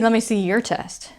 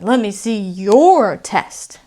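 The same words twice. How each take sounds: First: The word 'your' is weak and reduced. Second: The word 'your' is full and stressed. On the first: "Now I might see" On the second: "But if I'm emotional, ... I'm going to say that whole word"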